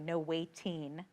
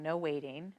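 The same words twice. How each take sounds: First: The t is crisp and clearly pronounced. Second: The t is soft, almost like a d. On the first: The speaker calls it right. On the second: The speaker calls it wrong.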